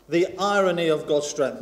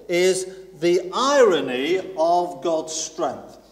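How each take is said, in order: First: Said in the usual way. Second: Irony drawn out slowly; stress on irony. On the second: Shown as a demonstration. Preacher announcing first point, stressing "irony". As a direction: lean into the word "irony".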